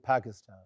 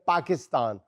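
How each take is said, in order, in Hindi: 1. पहली p में हल्की सी h जैसी साँस है। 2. पहली p में हवा का झोंका नहीं है। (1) "पे के साथ थोड़ी सी हे शामिल कर लें" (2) "हम कहेंगे"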